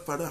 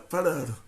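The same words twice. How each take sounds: First: The final r sound is dropped. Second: The final r sound is trilled. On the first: The speaker calls it wrong. "Você não fala parar" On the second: The speaker calls it right. "tem um reis no final da palavra, você fala, brr"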